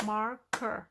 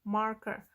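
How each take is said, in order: First: "Marker" split into two beats, mar, ker; syllable by syllable. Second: Said in the usual way. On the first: Shown as a demonstration. Teacher counting two syllables for learners, syllable by syllable. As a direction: say "Marker" with a clear gap after "Mar". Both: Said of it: "Two syllables".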